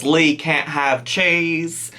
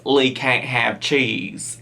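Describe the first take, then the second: First: Put-on slow, clumsy British accent; bad British accent. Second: British attempt slipping into Southern; lower-pitched quote with a Southern slant; accidental Southern accent. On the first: Reactor quoting the mum about her son, bad British accent. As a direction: attempt a British accent, slowly and badly. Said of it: "that was the worst British accent on my part". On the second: Reactor quoting the mum on Lee, Southern accent creeping in. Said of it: "that was Southern".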